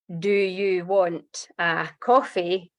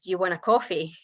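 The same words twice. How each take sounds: First: Each word is said separately and clearly. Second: The words are run together into two chunks. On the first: "five words" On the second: "what we actually say is essentially two words"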